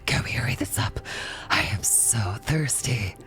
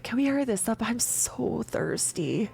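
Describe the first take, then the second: First: It is said in Kothar's character voice. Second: It is not Kothar's character voice.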